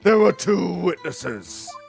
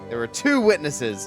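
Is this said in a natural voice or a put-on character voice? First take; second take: character voice; natural. First: It is said in a put-on character voice. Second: It is said in the speaker's natural voice. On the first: The speaker calls it right. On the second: The speaker calls it wrong.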